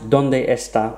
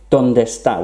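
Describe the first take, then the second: First: Both E sounds are pronounced separately. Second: The two E sounds merge into one. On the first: "also fine" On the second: "where you would actually drop one of the E's when you pronounce the words"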